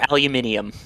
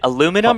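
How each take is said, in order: First: Said with an extra 'i' syllable. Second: Said without the extra 'i' syllable. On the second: "without the second I"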